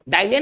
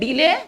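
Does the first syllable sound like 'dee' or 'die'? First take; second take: die; dee. First: The first vowel is an 'eye' diphthong. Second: The first vowel is a long 'ee' sound. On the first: The speaker calls it wrong. "डाइले नहीं" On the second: The speaker calls it right. "इसको पढ़ेंगे डीले"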